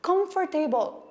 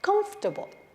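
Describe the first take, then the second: First: The word ends with a 'table' sound. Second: The word does not end with 'table'. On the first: The speaker calls it wrong. "यो शब्दको अन्त्यमा table भएको कारणले हामी मध्ये धेरै जना यसलाई comfortable भनेर pronounce गर्छौं" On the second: The speaker calls it right. "correct pronunciation हो"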